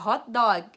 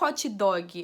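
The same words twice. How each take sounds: First: It is said with an American English accent. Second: It is said with a Brazilian Portuguese accent. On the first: The speaker calls it right. "é hot dog" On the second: The speaker calls it wrong. "hot dog não é hot dog"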